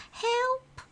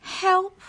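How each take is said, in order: First: Very high mocking squeaked help; mock squeal. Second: Very high, loud squealed cry for help. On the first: Kids mocking the boy's fall, very high mock squeal. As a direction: pretend to panic to tease him. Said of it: "others pretending to squeal". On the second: A narrator's reading. Boy falling from the climbing wall, high squeal. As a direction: squeal it in panic as you fall. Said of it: "he squealed".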